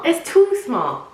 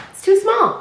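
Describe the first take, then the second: First: TOO drawn out slowly in "too small"; stress on TOO. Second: Said in the usual way. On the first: Real, not acted. Vlogger rejecting the little purse, TOO stretched out. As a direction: lean long and hard on "too".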